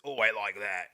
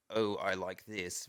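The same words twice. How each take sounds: First: Rough British. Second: Posh British. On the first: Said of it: "like, rough". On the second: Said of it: "that difference between". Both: Shown as a demonstration.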